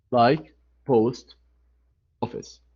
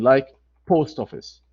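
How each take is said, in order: First: "post" stressed, "office" almost swallowed; stress on post again. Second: "post" hit, "office" falling; teacher showing "post office" with the first part stressed. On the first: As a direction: repeat "post office", first part strong. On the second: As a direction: model "post office" with weight on "post". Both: Shown as a demonstration.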